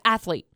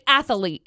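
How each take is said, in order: First: No extra vowel is inserted, giving two syllables. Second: An extra vowel sound is inserted, giving three syllables. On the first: The speaker calls it right. "Stop putting random A's in" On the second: The speaker calls it wrong. "people say athlete"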